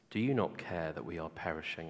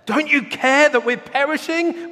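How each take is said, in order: First: It is read calmly and plainly. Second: It is said with more urgent intensity.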